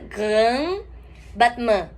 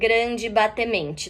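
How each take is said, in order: First: French sounds, with the R made in the throat. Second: Portuguese sounds, with added final vowels. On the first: The speaker calls it right. "A pronúncia em francês dessa palavra seria grand, esse R de novo na garganta" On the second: The speaker calls it wrong. "não falem grande batemente também"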